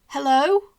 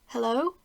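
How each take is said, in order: First: It is said louder. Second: It is said softly.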